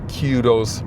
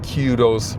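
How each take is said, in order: First: It is said in a British pronunciation. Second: It is said in a British pronunciation.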